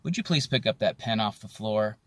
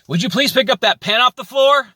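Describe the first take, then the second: First: It is said in a calm, polite tone. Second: It is said in an irritated, angry tone. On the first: It is a sincere request for action. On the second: The speaker is venting frustration.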